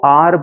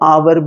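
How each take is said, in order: First: The word sounds like 'are'. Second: The word sounds like 'hour'. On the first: "को r भी पढ़ते" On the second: "और our भी पढ़ते, दोनों सही है"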